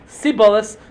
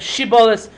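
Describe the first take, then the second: First: The word begins with an s sound. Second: The word begins with a sh sound. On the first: The speaker is from that tribe. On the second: The speaker is not from that tribe. "how you could pronounce the word Shibolis"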